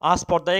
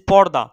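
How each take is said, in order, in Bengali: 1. ব্যঞ্জনগুচ্ছের আগে একটি 'a' স্বর যোগ হয়। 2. শব্দটি সরাসরি ব্যঞ্জনগুচ্ছ দিয়ে শুরু হয়।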